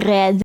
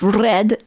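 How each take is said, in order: First: The R is made in the throat. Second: The R is rolled with the tongue. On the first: "in a throat kind of R" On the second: "Instead of red"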